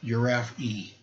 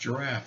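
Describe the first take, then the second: First: An extra ee sound is said at the end. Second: The word ends without any extra vowel sound. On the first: The speaker calls it wrong. "she was pronouncing the word giraffe, giraffe E, because it has an E on the end" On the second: The speaker calls it right. "no, it's pronounced giraffe"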